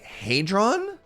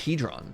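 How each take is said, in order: First: The first vowel is a long A. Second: The first vowel is not a long A. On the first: The speaker calls it right. "Pronounce with a long A" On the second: The speaker calls it wrong. "I always thought it was hedron. I'm obviously wrong"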